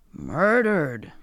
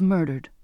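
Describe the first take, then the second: First: Astonished echo with swooping pitch; shocked cry. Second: Said in the usual way. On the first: A narrator's reading. Zachariah hears of Hollybrass's death, a shocked cry. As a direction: cry out the word in disbelief. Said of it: "he cried".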